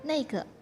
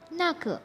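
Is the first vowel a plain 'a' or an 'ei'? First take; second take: ei; a. First: The first syllable has an 'ei' vowel. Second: The first syllable has a plain 'a' vowel. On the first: This is how native speakers say it. The speaker calls it right. "mereka akan bilang ceike, neike" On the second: This is how it is written. The speaker calls it wrong. "mereka nggak bilang nake"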